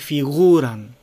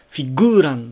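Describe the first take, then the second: First: The g is a soft fricative without closure. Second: The g is a full stop closure. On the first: The speaker calls it right. "ここは摩擦音です" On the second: The speaker calls it wrong. "フィグーランではなくて"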